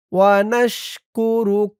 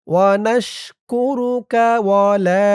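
First: ওয়া নাশ কু রুক with a full stop on the final ক; stop at the end. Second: রুকা joined straight into ওয়া লা; no stop, run on. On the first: Teacher showing the reading with a stop, pause after রুক. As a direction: close রুক and pause before going on. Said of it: "থেমে পড়লে এভাবে বলবেন". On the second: Teacher showing the reading without a stop, linked on. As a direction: carry রুক on as রুকা without a pause. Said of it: "আর না থামলে". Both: Shown as a demonstration.

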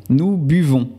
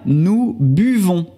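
First: Said in the usual way. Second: "nous buvons" drawn out slowly, leaning on "buvons"; teacher slowing "nous buvons" to show the new stem; slow stressed demo. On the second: Shown as a demonstration. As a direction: spell out "nous buvons" slowly so the change stands out. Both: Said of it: "Ahora cambia".

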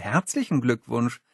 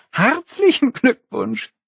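First: Said in the usual way. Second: Herzlichen Glückwunsch drawn out slowly, high and sneering; mocking reading. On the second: Holly sneering at the cake lettering Herzlichen Glückwunsch.

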